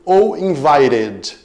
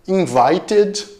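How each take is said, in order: First: The middle consonant is a quick r-like flap. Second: The middle consonant is a clear t sound. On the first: "passado com o som de R, puxado mais para o sotaque americano" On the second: "passado com o som de T"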